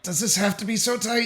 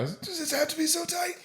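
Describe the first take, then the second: First: It is said through clenched teeth. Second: It is said without clenched teeth.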